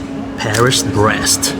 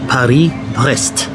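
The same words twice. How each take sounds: First: It is said with an American English pronunciation. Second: It is said with a French pronunciation.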